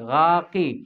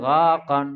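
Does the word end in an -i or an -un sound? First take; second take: -i; -un. First: The word ends in a short i sound. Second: The word ends in an un sound. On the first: It copies the crow's call unchanged. The speaker calls it right. "কাপে জের দি এরকম উচ্চারণ হবে" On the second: A case ending changes the imitated sound. The speaker calls it wrong. "আওয়াজ পাল্টে গেল না"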